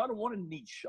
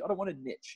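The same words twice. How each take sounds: First: "niche" said as neesh, long ee; "niche" ending in a soft sh. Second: "niche" said as nitch, short i; "niche" ending in a hard tch. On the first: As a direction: rhyme "niche" with leash. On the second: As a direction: rhyme "niche" with pitch. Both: Retold or imitated. Repeats it with both pronunciations.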